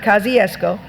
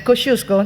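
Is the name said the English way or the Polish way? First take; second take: English; Polish. First: The name is said with English sounds. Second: The name is said with Polish sounds. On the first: The speaker calls it wrong. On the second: The speaker calls it right.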